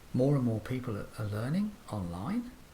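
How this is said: The pitch rises at the end. The speaker sounds questioning or unsure. The speaker calls it wrong. "contrast that with a rising intonation"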